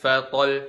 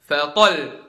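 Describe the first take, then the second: First: The final doubled sound is said plainly, not raised. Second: The voice is raised on the final doubled sound. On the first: The speaker calls it wrong. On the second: The speaker calls it right. "Fatol bukan fatol"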